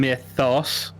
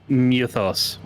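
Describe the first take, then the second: First: The first vowel sounds like 'eye'. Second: The first vowel sounds like 'oo'. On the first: This is the usual American pronunciation. "he's not saying mythos" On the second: This is how the character says it. "He's saying like Muthos"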